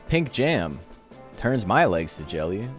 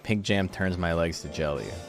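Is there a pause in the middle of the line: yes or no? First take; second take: yes; no. First: There is a pause in the middle. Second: It flows without a pause in the middle. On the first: The speaker calls it wrong. "there's like a gap, as if there's like a semicolon or something in the middle there" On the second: The speaker calls it right. "It's supposed to be"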